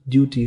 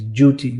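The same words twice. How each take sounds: First: The word starts with a plain D sound. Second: The word starts with a J sound.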